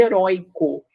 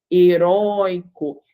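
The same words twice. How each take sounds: First: Said in the usual way. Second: "Heróico" slowly, with a long open ói; slow teacher's demo of "Heróico", ói held; drawn-out open diphthong. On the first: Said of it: "é diferente da palavra heróico". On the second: Shown as a demonstration. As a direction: stretch the ói in "Heróico". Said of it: "Perceba que em heróico você tem o oi".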